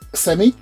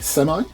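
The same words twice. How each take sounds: First: The word is said in a British accent. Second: The word is said in an American accent.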